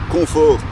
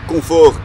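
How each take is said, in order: Both takes have the same delivery.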